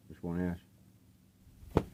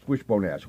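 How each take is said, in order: First: Very slow, stretched name; drawn out. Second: Said in the usual way. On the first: Shown as a demonstration. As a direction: savor the band name slowly. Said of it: "Wishbone Ash, okay?".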